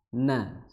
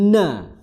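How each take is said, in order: First: The syllable is said with moderate, even pressure. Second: The syllable is said with very hard, forceful pressure. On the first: The speaker calls it right. "na na seperti itu" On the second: The speaker calls it wrong. "bukan na, ya, itu terlalu kencang, terlalu keras"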